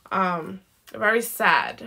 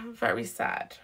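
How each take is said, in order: First: Said in the usual way. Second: Breathy whisper, low and soft. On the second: Real, not acted. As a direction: drop to a whisper on "Very sad". Tarot reader repeats sad reading.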